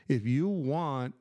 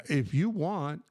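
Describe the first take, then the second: No difference in how they are said.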